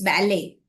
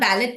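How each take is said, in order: First: The final T sound is silent. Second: The final T sound is pronounced. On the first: The speaker calls it right. "The T is silent here" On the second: The speaker calls it wrong. "It's actually not ballad"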